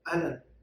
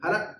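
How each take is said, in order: First: The greeting is said in full, all syllables clear. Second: The greeting is said quickly, clipped to two syllables. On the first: "अरबी लोग ज़्यादातर अहलन कहते हैं" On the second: "जल्दी में कहते हैं हला"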